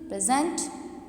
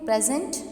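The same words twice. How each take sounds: First: The stress is on the second syllable. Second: The stress is on the first syllable. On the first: It is a verb meaning to give something to someone. "अगर मैं stress इसी word के second saleable पे दूँ" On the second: It is a noun meaning a gift. "present अगर मैं stress first saleable पे दूँ तो इसका माइनिंग बनता है गिफ्ट"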